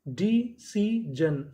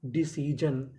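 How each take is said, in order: First: डी सी जन in slow separate pieces; syllable by syllable. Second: Said in the usual way. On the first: Shown as a demonstration. Teacher building decision from its codes, syllable by syllable. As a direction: sound out डी, सी, जन with gaps between. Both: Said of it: "तो meaning क्या बनी".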